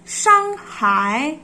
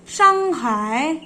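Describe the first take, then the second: Both takes have the same delivery.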